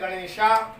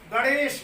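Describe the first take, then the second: First: The word ends with an added long 'aa' vowel. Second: The word ends on the final consonant. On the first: The speaker calls it wrong. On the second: The speaker calls it right.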